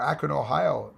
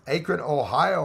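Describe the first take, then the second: First: Akron said as ACK-ron, short A as in "back"; Akron with the first syllable ACK; corrected Akron. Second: Akron said as AY-kron, long A like "acorn"; Akron with the first syllable AY; first try at Akron. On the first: Correcting himself on a viewer's town, saying Akron as ACK-ron. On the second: Reading a viewer's town from chat, saying Akron as AY-kron. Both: Shown as a demonstration. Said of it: "or Akron, Ohio".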